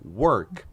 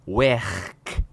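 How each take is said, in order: First: It is said with a standard English vowel. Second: It is said with a Liverpool-style vowel. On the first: "ao invés delas falarem work" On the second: "eles falam werk"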